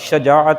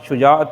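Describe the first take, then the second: First: The first vowel is a short 'a'. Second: The first vowel is a short 'u'. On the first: The speaker calls it right. "शीन के फ़तह के साथ शजाअत है" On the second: The speaker calls it wrong. "शुजाअत नहीं है"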